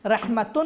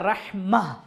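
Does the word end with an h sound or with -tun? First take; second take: tun; h sound. First: The word ends with a full -tun ending. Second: The word ends with a soft, silent h. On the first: The word runs on into more speech. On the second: The speaker stops on this word.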